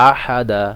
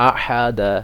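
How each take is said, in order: No difference in how they are said.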